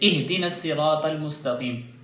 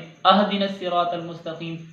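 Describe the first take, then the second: First: The first vowel is a short 'i'. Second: The first vowel is a short 'a'. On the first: The speaker calls it right. "हमज़ा ज़ेर हा इह, ये बनता है ऐसे" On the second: The speaker calls it wrong. "हम इहद की जगह पे अहदिन पढ़ दें"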